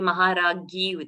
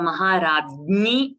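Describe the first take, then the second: First: The cluster is pronounced as a plain 'gya'. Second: The cluster is pronounced with a nasal 'gnya'. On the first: This is how North Indian speakers say it. The speaker calls it wrong. "for the gnya, they will say gya" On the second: This is the Sanskrit pronunciation. The speaker calls it right. "So it is gnya. So Maharagni would only be the correct way"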